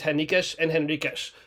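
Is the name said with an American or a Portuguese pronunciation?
Portuguese. The name is said with a Portuguese pronunciation. "because of the way the Portuguese say everything, it is"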